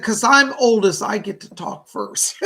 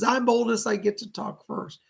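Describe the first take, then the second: First: Louder, laughing grandma bragging she goes first; a light, cheeky old-lady brag with a laugh; grandmother's playful boast. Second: Said in the usual way. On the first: Retold or imitated. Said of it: "She said". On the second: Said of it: "She says".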